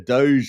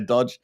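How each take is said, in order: First: The word is not said like 'dodge'. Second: The word is said like 'dodge'. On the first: The speaker calls it right. "It's Doge" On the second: The speaker calls it wrong. "don't say Dodge"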